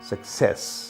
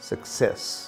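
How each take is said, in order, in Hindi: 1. बलाघात दूसरे अक्षर पर है। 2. बलाघात दूसरे अक्षर पर है।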